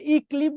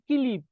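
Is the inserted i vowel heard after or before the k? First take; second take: before; after. First: An i vowel comes before the k sound. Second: An i vowel comes after the k sound. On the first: The speaker calls it wrong. "যদি ইক্লিপ বলতাম তখন রস্বইটা আগে উচ্চারণ হতো" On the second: The speaker calls it right. "উচ্চারণ কয়ের পরে"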